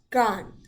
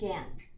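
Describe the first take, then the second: First: The vowel is said fully as an A. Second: The vowel is said lazily and reduced. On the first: "if I were to be speaking with a proper English accent" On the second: "we kind of say lazy"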